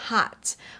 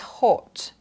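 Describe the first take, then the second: First: The vowel is open with a wide mouth. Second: The vowel is short with small rounded lips. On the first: "เพื่อน American กี่เขาจะพูดว่า hat ... ปากจะกว้าง" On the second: "ปากมันจะเล็กมาก ... สไตล์ British"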